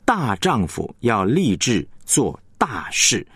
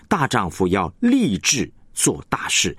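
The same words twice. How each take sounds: First: Slow, weight on 大丈夫 and 大事; 重音在大丈夫和大事; stress on 大丈夫 and 大事. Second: Slow, weight shifted onto 立志; 重音在立志; stress on 志向. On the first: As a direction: press 大丈夫 and 大事, keep 立志 light. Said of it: "它的重音就是落在大丈夫还有大事". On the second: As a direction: lean on 立志 to stress the ambition. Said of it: "你要强调的就是那个志向". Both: Shown as a demonstration.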